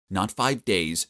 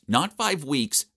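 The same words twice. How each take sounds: First: Said in the usual way. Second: "five" stressed, higher and slower; building emphasis. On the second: Shown as a demonstration. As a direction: lean on "five" a bit more. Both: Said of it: "but five freaking months".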